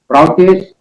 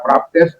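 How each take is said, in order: First: The middle is pronounced with a U sound. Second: The middle is pronounced with a P sound. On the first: The speaker calls it right. "itu tetap dibaca U ya" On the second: The speaker calls it wrong. "ini bukan dibaca praptes"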